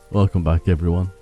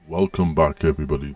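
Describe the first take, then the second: First: It is said in his normal voice. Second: It is said in a put-on voice.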